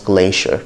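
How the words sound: It is said with an American accent. "in American English this can also be pronounced glacier"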